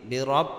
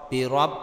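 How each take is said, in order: The two takes are said the same way.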